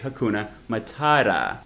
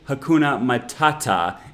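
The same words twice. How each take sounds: First: The t sounds are flapped, like a quick d. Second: The t sounds are crisp and clear.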